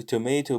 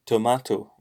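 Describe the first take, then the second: First: "tomato" with an ay in the middle, to-MAY-to; American tomato. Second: "tomato" with a long ah, to-MAH-to; British tomato. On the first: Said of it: "we also don't say a tomato". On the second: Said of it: "but we say tomato". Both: Shown as a demonstration.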